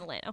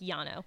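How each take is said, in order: First: The word begins with an L sound. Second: The word begins with a Y sound. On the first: "Lano says it in a country way" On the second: "It's like Yano"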